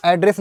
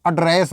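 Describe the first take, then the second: First: "एड्रेस" with an open a opening, as the noun; noun pronunciation. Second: "एड्रेस" with a short uh opening, as the verb; verb pronunciation. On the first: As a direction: say "एड्रेस" as AD-ress. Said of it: "इसको आप एड्रेस मत बोलना". ("एड्रेस" को "ऐड्रेस" जैसे बोलें) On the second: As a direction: say "एड्रेस" as uh-DRESS. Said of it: "इसको एड्रेस बोलना है". ("एड्रेस" को "अड्रेस" जैसे बोलें) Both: Shown as a demonstration.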